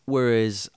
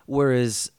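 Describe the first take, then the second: No difference in how they are said.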